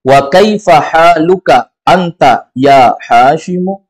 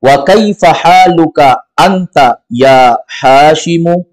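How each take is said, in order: First: Slow, steady Arabic question; model reading repeated. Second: Slow, deliberate Arabic question; model reading. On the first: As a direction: read it again slowly for the class. (bacaan ulang pelan) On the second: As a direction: lead the class through each word slowly. (bacaan contoh pelan, kata demi kata) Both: Shown as a demonstration. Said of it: "kita ikuti lagi".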